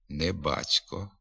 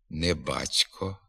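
Both takes have the same delivery.

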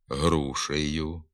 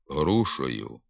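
First: The vowel before the ending sounds like 'e'. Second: The vowel before the ending sounds like 'o'. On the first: This is the literary standard form. The speaker calls it right. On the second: This is a dialectal form. The speaker calls it wrong.

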